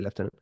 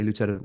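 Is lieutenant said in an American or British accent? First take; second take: British; American. First: It is said the British way, like lef-tenant. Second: It is said the American way, like loo-tenant.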